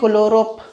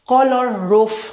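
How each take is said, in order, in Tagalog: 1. Pinagdikit ito bilang isang salita. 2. Binibigkas ito bilang dalawang magkahiwalay na salita. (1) "hindi yan kolorop" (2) "Color tapos roof"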